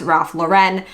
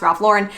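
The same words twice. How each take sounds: First: The name is given a foreign-sounding pronunciation. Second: The name is given a plain American pronunciation. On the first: The speaker calls it wrong. "There's a big misconception that it's pronounced" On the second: The speaker calls it right. "he is an American designer. It is pronounced"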